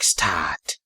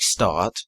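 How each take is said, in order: First: The vowel is said with breath on both sides. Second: The vowel is said plainly, without added breath. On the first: "you'll have H's uh, either side of the A's" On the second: "which is normally spelled S T A R T"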